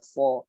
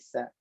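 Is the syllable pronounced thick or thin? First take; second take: thick; thin. First: The syllable sounds thick, with a darkened vowel. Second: The syllable sounds thin, with a light vowel. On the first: The speaker calls it wrong. "sa tidak dibaca so" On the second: The speaker calls it right. "tapi sa"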